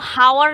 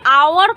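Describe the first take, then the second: First: The word starts with an audible h sound. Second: The word starts with a vowel, no h sound. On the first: The speaker calls it wrong. "आवर को हावर नहीं बोलते" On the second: The speaker calls it right. "यहाँ पर एच silent रहता है"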